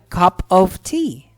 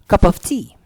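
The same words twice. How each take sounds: First: The words are said slowly and separately. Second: The words are linked together as one. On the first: "Typically, kapag sasabihin yan" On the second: "for a native speaker, you would hear them saying this"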